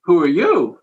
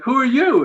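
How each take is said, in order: First: Imitating her, question thrown back; lightly voiced woman returning the challenge; retold counter-question. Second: High, startled retort from himself; higher-pitched quoted question, lightly acted; retold surprised question. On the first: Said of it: "And she's like". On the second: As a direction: act out being caught off guard, pitch jumping up. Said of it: "I'm like".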